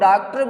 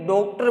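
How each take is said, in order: First: The first vowel sounds like an open 'aa'. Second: The first vowel sounds like a rounded 'o'. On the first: "कई डॉक्टर आ बोल देते हैं" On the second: "ओ बोल देते हैं"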